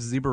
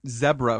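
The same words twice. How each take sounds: First: It is said with an American accent. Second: It is said with a British accent.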